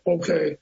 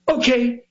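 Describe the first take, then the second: First: It is said flatly without energy. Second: It is said theatrically with a pop.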